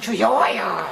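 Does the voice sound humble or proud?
proud. It is said grandly and confidently, with force. The speaker feels sure of his own obedience. "손 막 위로 막 받들어 들어가면서 막"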